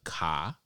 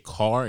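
First: The word is said in a Boston-style accent. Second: The word is said in a plain, non-Boston accent. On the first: This is how some other locals say it. The speaker calls it wrong. "That's like Boston" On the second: This is how the speaker says it. The speaker calls it right. "I definitely say car"

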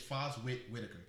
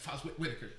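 First: The name is said at a normal pace. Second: The name is said quickly, run together.

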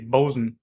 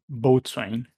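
First: The word is reduced to two short syllables, bosun. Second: The word is said in full as boat-swain. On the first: The speaker calls it right. "the proper way to pronounce it is" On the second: The speaker calls it wrong. "not boatswain"

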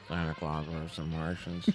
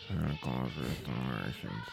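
First: It is said even more loudly. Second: It is said at a normal volume.

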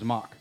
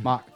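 First: The R sound in the name is dropped. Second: The R sound in the name is dropped.

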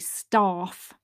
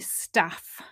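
First: The vowel is a long 'ah' sound. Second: The vowel is a short 'a' sound. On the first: This is the southern way of saying it. "in the south, they tend to say staff. It's a long R" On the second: This is the northern way of saying it. "I say staff, and I think probably 50-60% of the country would use that short a"

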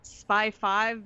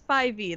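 First: The final V is read as the number five. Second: The final V is not read as five. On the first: The speaker calls it wrong. "because they think it's like the Roman numeral" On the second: The speaker calls it right. "That is the correct way to say that"

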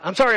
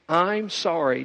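First: It sounds quick and dismissive. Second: It sounds slow and sincere.

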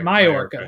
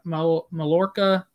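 First: The double L is sounded as a Y. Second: The double L is sounded as an L. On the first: The speaker calls it right. "Don't pronounce the L's" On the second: The speaker calls it wrong. "Is that how you say it?"

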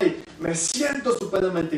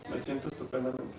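First: It is said with energy and conviction. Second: It is said flatly, without conviction.

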